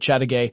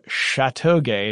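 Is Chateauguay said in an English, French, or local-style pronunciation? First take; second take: local; French. First: The name is said with a local regional pronunciation. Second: The name is said with a French pronunciation. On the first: "the actual local pronunciation is closer to Chateauguay" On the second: "if you want to pronounce it the French way"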